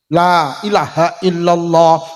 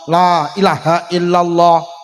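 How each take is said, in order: Both takes have the same delivery.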